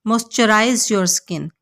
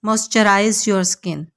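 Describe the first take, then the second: No difference in how they are said.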